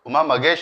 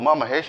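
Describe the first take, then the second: First: The surname is said with a g sound. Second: The surname is said with an h sound. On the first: This is how Tamil speakers say the name. "Uma మగేష్ అని పిలుస్తారు" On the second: This is the usual non-Tamil way of saying the name. "Tamilians Uma మహేష్ అని పిలవరు"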